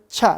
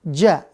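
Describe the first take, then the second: First: The syllable begins with a voiceless ch sound. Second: The syllable begins with a voiced j sound. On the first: The speaker calls it wrong. "jangan ca" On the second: The speaker calls it right. "Dia tetap ja"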